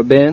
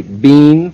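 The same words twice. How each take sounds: First: Said in the usual way. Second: "bean" with a long ee; drawn-out ee in "bean"; posh "been" as bean. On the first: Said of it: "say bean for Ben". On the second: Retold or imitated. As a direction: say "bean" to rhyme with seen. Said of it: "does she say bean for Ben".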